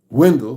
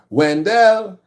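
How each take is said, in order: First: The name is said with an American accent. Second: The name is said with a Trinidadian accent. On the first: "which Americans will say" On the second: "If you're Trinidadian, ... they'll say Wendell"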